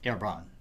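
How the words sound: The name is said with a French pronunciation. "As Herbrand is French, it should properly be pronounced Herbrand"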